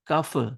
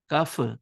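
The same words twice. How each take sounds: The two takes are said the same way.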